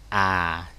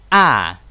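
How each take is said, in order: First: The pitch is low and falls gently. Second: The pitch drops sharply from high to low. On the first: "được đọc như dấu huyền của tiếng Việt" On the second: "Từ trên cao rớt xuống đấy"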